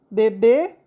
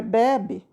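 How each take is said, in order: First: "Bebê" stressed on the final BÊ; "Bebê" with the weight at the end; stress on final syllable. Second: "bebe" stressed on BE, open e; "bebe" with a weak final i sound; stress on first syllable. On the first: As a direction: land on a closed ê in "Bebê". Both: Shown as a demonstration. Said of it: "Tá vendo a diferença?".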